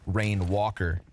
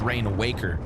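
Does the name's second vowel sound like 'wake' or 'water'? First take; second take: water; wake. First: The second vowel sounds like the one in water. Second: The second vowel sounds like the one in wake. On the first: "What if it's a long A? Like water? Because then it would be Rain Walker" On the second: "we've all read the word and decided it's Rain Waker"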